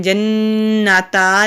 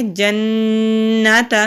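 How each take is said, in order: First: جنتا with the final ta drawn out into a long a; wrong pronunciation. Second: جنت with a short, unstretched final ta; correct pronunciation. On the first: Teacher shows the wrong drawn-out ending. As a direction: stretch the end of جنتا as a long vowel. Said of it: "جنتا نہیں کریں گے". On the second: Teacher shows the right short ending. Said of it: "تا کو کھینچیں گے نہیں". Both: Shown as a demonstration.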